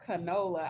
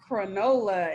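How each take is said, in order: First: There is no added r sound in the word. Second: An r sound is added after the first consonant. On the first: "instead of canola" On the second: "I don't know where that R came from"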